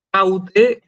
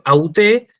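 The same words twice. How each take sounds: First: Jaute with a breathy h and stress on JAU; rough breathing, first-syllable stress. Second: Auté with no h and stress on the last syllable, TÉ; smooth breathing, final stress. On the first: Teacher showing students the feminine of houtos, Jaute stressed on JAU. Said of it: "Fíjense dónde tiene el acento". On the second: Teacher showing students the feminine of autos, auté stressed on TÉ. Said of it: "el espíritu es suave y el acento agudo en la última". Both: Shown as a demonstration.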